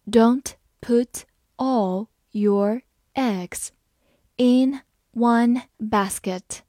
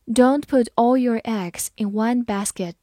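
First: Slow, clear word by word reading. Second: Said in the usual way. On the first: Shown as a demonstration. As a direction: read it slowly for learners. (慢速朗读) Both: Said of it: "好，我们慢慢来读。".

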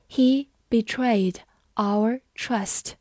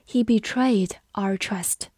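First: Very slow, each word set apart; 慢速示范朗读. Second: Said in the usual way. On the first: Shown as a demonstration. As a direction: read it out slowly with clear gaps between words. (放慢速度，逐词朗读) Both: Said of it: "我们慢读一遍".

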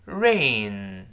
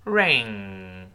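First: Drawn-out "rain" ending on n, tongue root down; slow model "rain", no g colour; front n ending. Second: Lower-pitched, drawn-out "ring", throat closed on ng; slow model "ring" ending in a long ng; velar ng ending. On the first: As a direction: hold "rain" on a front nasal, throat open. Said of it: "我们再读一下下雨". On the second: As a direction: hold "ring" on a back-of-tongue nasal. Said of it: "再读戒指". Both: Shown as a demonstration.

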